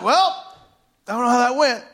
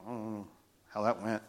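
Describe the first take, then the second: First: High-pitched, comically unsure retelling; pitched-up comic aside; comic doubt. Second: Low, very soft aside; hushed, deflated murmur; quiet uncertainty. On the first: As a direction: shrug it off in a raised, mock-sheepish voice. Retells his awkward reaction, now comically. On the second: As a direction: say it under your breath, unsure. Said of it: "He gets quiet". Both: Retold or imitated.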